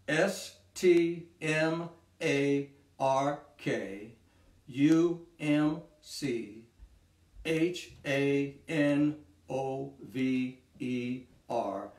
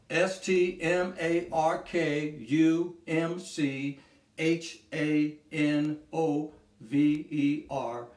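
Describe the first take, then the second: First: It is spelled out more slowly. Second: It is spelled out at a normal pace.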